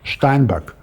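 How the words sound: The name is said in a German way, ending in k. "with K at the end, not G"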